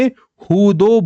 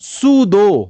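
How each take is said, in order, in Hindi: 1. शब्द h की आवाज़ से शुरू होता है। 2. शब्द s की आवाज़ से शुरू होता है।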